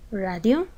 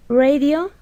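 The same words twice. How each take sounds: First: Radio said the Spanish way, RAH-dyo, with a tapped r; Spanish pronunciation. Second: Radio said the English way, RAY-dee-oh, with a higher, louder start; English pronunciation. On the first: Teacher giving the Spanish translation radio, Spanish pronunciation. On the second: Teacher reading the English word Radio to students, English pronunciation. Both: Shown as a demonstration.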